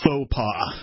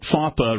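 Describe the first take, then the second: First: The first syllable sounds like 'foh'. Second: The first syllable sounds like 'faw'. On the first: The speaker calls it right. "it should have been pronounced like ... faux pas" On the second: The speaker calls it wrong. "it was pronounced FAWPA repeatedly"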